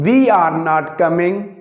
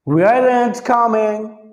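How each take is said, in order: First: 'Are not' is said as two separate words. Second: 'Are not' is said as one contracted word. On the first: This is the local everyday form. The speaker calls it wrong. "ये हो गई हमारी पाकिस्तानी अंग्रेजी" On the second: This is how native speakers say it. The speaker calls it right. "अंग्रेज कभी भी यू आर इस्तेमाल नहीं करता"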